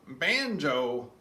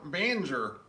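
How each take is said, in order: First: It is said with a standard pronunciation. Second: It is said with an Appalachian pronunciation.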